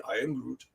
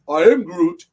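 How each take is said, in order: First: Low, soft character catchphrase; Groot. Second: Loud, emphatic character catchphrase; Groot. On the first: Host repeating what the character would say, low quiet impression. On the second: Host quoting the character from a game cover, loud impression. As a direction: punch out the catchphrase, louder than usual talk. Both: Retold or imitated. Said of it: "That's what he would say".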